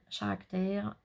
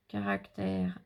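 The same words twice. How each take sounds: First: "caractère" starting with a sh sound; "caractère" with sh replacing the first k; soft first consonant. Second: "caractère" with a hard k at the start; French-style "caractère", k sound first; French pronunciation. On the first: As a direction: say "caractère" as if spelt "charactère". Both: Real, not acted. Tries two readings of English word.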